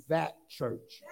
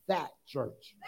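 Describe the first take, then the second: First: Said in the usual way. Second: "that church" with weight on "that"; emphatic. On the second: Shown as a demonstration. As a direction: lean on "that" in "that church". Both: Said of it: "Now say it like you got some emphasis".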